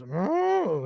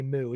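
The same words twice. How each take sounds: First: Cow moo imitation. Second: Said in the usual way. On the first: The cow mooing back, lightly imitated. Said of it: "the cow kinda goes". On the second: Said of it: "cows say".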